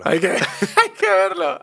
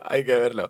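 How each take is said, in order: First: Laughing mimicry, pitched way up; mocking laugh. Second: Said in the usual way. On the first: Echoing his co-host's words to tease him, laughing high and slow. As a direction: echo the phrase high and slow through laughter.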